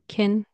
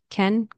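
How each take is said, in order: First: The word has a short, reduced, unstressed vowel. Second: The word has a full, clear vowel.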